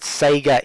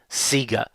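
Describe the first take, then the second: First: Sega is said with the standard vowel. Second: Sega is said with the Australian vowel. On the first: "I understand that Sega is correct" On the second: "in Australia, even their own promo material seemed to say Sega"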